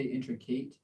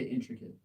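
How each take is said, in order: First: Intricate with a long "ate" ending like "in-tri-kate"; student's version. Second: Intricate with a short "it" ending, in-tri-kit; American pronunciation. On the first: Teacher imitating the student's wrong intricate, ending in kate. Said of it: "So you say". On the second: Teacher showing the student the American intricate ending in kit. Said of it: "we say intricate in America". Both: Shown as a demonstration.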